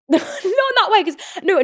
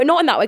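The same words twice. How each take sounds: First: Laughing, high and louder, "Not in that way" broken up by laughter; laughing correction. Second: Said in the usual way. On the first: Real, not acted. She laughs, correcting how her words sounded. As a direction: laugh through "Not in that way" at her own wording. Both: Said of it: "'cause that sounds like me".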